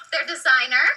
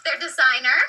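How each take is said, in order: The two takes are said the same way.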